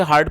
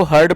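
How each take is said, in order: First: हार्ड with a long open "aa" vowel; mispronounced heard. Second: हर्ड with a short central "uh" vowel; correct pronunciation. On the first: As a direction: say हार्ड the wrong way, rhyming with "card". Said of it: "कई लोग इसे हार्ड पढ़ते हैं". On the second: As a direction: say हर्ड to rhyme with "bird". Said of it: "इसको आपको हर्ड पढ़ना है". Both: Shown as a demonstration.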